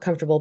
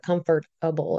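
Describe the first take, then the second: First: It is said in the usual reduced everyday way. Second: It is said fully as comfort plus able. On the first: Being at ease. "Not comfortable" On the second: Able to be comforted. "but comfortable, if that makes sense"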